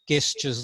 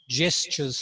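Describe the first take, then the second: First: It begins with a hard g sound. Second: It begins with a soft j sound. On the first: The speaker calls it wrong. "not gestures the way it's spelt" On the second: The speaker calls it right. "gestures like jam"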